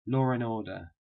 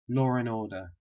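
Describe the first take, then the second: First: The D is dropped between 'and' and 'order'. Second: The same.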